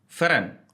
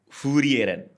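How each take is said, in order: First: The r sound is nearly dropped. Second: An extra vowel separates the opening f and r. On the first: "Jerman katanya sebutannya ... R- agak hilang" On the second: "Kalau versi Jepang"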